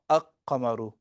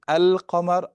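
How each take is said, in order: First: The l sound of the article is dropped. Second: The l sound of the article is clearly pronounced. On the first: The speaker calls it wrong. "and not a-qamaru? ... that is incorrect" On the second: The speaker calls it right. "how do I know whether it's going to be al-qamar"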